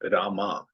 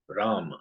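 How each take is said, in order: First: The name ends with a full, long final vowel. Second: The name ends with only a short, light release. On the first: The speaker calls it wrong. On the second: The speaker calls it right.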